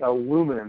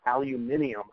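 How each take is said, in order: First: The word is said in the American form. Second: The word is said in the British form. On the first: The speaker calls it right. "So you have to say aluminum" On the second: The speaker calls it wrong. "not aluminium"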